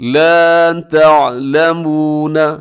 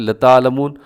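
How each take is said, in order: First: The first vowel is held long. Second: The first vowel is cut short. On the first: You do not know. The speaker calls it right. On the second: You surely know. The speaker calls it wrong.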